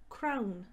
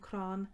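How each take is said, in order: First: The vowel is an ow sound, like crown. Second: The vowel is a long open ah sound. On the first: "as crown" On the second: "you might be more used to saying crán"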